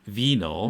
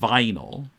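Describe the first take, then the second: First: The first vowel sounds like 'ee'. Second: The first vowel sounds like 'eye'. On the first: This is the German pronunciation. "The I in German is E, so Vinyl" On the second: This is the American pronunciation. "but Americans say"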